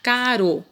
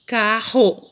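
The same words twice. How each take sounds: First: CARO with a light tongue-tap R; single tapped R. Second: CARRO drawn out, with an h-like R; strong double R. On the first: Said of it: "Se você tirar um R". ("caro" com R brando, de um toque só) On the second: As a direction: stretch "carro" as "caa-ho". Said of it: "ó, com dois R". ("carro" alongado, com R forte) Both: Shown as a demonstration.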